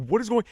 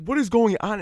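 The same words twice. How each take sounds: First: Dad's startled high-pitched call; mock-alarmed dad, much higher. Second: Mom's startled high-pitched question; mock-alarmed mom, much higher. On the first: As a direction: imitate a dad shouting in alarm. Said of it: "My dad's like". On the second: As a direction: imitate mom asking in alarm. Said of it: "she's like".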